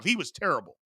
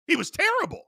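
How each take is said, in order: First: Said in the usual way. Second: Exasperated high-pitched repeat; emphatic repeat. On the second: Acted. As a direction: jump much higher on terrible. Repeats verdict on Purdy, emphatic.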